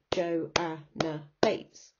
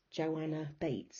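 First: "Joanna Bates" split into slow separate beats; half-speed counting out of "Joanna Bates"; syllable by syllable. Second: Said in the usual way. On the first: Shown as a demonstration. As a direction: break "Joanna Bates" into Jo, a, nna, Bates. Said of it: "four syllables". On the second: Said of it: "think of your name".

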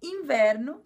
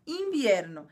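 First: Said in the usual way. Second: "invierno" with a Spanish ie; "invierno" with a clear ie, not Portuguese "inverno". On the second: Shown as a demonstration. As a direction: say "invierno" with the ie diphthong. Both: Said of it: "um pouquinho puxa-, a puxadinha a pronúncia".

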